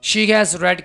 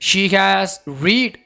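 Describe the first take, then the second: First: The verb has a short e vowel. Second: The verb has a long ee vowel. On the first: The speaker calls it right. "तो इस word को कैसे बोला जाएगा? रेड।" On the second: The speaker calls it wrong. "No, इसको रीड नहीं बोलना"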